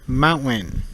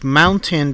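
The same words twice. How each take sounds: First: The T sounds like a hard N. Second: The T is pronounced as a clear T.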